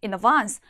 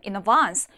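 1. 영국식 억양으로 말한 거예요. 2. 영국식 억양으로 말한 거예요.

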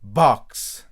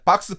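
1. 이 단어는 ks 소리만 그대로 끝나요. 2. 이 단어는 ks 뒤에 모음이 붙어서 끝나요. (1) "b 하고 크스 이렇게 나올 수 있게" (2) "그런 식으로 하면 안 되죠"

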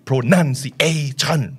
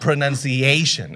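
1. ทุกพยางค์ถูกเน้นเสียงหนัก 2. มีเพียงพยางค์เดียวที่ถูกเน้นเสียงหนัก (1) "มันจะไม่มีอะไรแบบนี้ อันนั้นเป็นลักษณะของการแรป" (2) "อันนี้คือโดยธรรมชาติ, มันจะมีที่เดียว"

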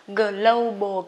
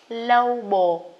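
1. Âm g và l tách rời nhau. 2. Âm g và l hòa liền nhau. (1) "mình cứ đọc tắt là global" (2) "Cụm phụ âm trong tiếng Anh mình sẽ đọc liền ha"

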